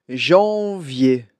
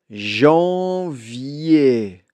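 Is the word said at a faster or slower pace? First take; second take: faster; slower. First: It is said at a quicker pace. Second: It is said at a slow, careful pace.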